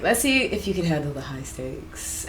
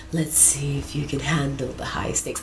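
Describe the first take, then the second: First: Lower, soft, sultry purr; hushed sultry temptress. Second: Seductive line broken by giggles; giggling half-whisper; laughing through the line. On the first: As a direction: say it like a low seductive dare. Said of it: "her voice is, like, low and sultry". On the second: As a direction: try to stay sultry but crack up. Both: Acted.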